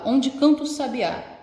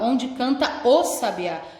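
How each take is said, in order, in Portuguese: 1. O 'o' se funde com 'ta' em uma só sílaba. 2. O 'o' é falado como uma sílaba própria. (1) "ele cria uma fusão entre o tá e o O" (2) "eu não falo onde canta o sabiá"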